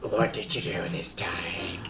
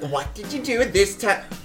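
First: It is said in the character's own voice. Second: It is said in an imitation of Coco's voice.

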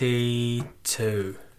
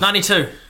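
First: It is said very slowly. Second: It is said at normal speed.

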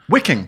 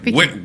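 First: The word begins with a W sound. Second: The word begins with a V sound. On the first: The speaker calls it right. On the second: The speaker calls it wrong.

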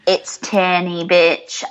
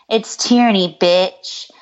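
First: It is said in a British accent. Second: It is said in her normal American accent.

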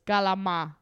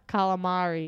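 First: It is said in an Italian-Brooklyn pronunciation. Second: It is said in a standard pronunciation. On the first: "Italian / Brooklyn pronunciations" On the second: "it's not calamari"

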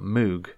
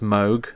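First: The vowel is a long 'oo' sound. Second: The vowel is not a long 'oo' sound. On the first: The speaker calls it wrong. "so you go Oog, and then you got the M at the beginning, so you got Moog" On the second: The speaker calls it right. "actually, it's pronounced Moog"

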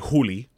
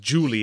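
First: The name begins with a Spanish jota sound. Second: The name begins with an English J sound. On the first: "the J in Spanish is Jota, so it would be" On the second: "instead of Julie"

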